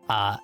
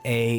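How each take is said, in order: First: The vowel sounds like 'ah'. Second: The vowel sounds like 'ay'. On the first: The speaker calls it right. "like if you were to say ah" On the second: The speaker calls it wrong. "It's not A"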